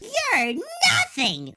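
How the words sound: It is said in a squeaky high voice.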